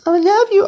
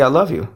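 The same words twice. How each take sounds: First: A squeaky, sing-song "I love you" pitched way up; mock high "I love you". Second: Said in the usual way. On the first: Mocking how people say love to everyone.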